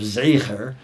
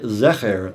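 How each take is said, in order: First: The first vowel is a gliding 'ay' sound. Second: The first vowel is a plain short 'eh'. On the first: It clearly means memory. "instead of zeicher" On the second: It might be heard as the word for maleness.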